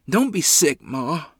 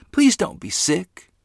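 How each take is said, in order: First: Sudden high, loud panicked cry; panicked plea. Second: High, slow desperate begging; pleading. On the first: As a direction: beg her in a rush of panic. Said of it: "a tremor of panic ran through my body". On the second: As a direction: stretch out the plea, pleading. Child begging sick mother. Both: A narrator's reading.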